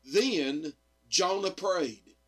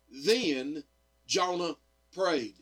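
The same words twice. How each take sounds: The two takes are said the same way.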